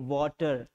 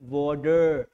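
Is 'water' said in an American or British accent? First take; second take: British; American. First: The middle consonant is a clear aspirated t. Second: The middle consonant sounds like a soft d. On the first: "British में pronounce, ये simple बोलेंगे वाटर ... पर ट को ठ कर देंगे" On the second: "अमेरिकन लोग बोलेंगे वाटर, ड बोलेंगे"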